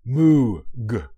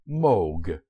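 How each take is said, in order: First: The vowel is a long oo, like moo. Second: The vowel is a long o, like vogue. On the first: The speaker calls it wrong. "It is not pronounced as Moog. Moog is a sound made by a cow" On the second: The speaker calls it right. "the name is pronounced Moog, as in vogue"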